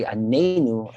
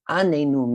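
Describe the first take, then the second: First: ANENU spoken with the weight on NE; stress on second syllable. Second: ANENU spoken with the weight on its opening A; stress on first syllable. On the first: Teacher explaining the word for answer us, stressing NE in Anenu. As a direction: hit the NE in Anenu. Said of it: "a stress on the second syllable". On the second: Teacher explaining the word for torture us, stressing the A in Anenu. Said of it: "put the pronunciation on the first syllable". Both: Shown as a demonstration.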